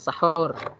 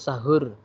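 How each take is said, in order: First: The h is made deep in the throat. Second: The h is a plain, light breath. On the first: The speaker calls it right. "harus fasih" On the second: The speaker calls it wrong. "bukan sahur ... kalau sahur pakai h itu artinya begadang"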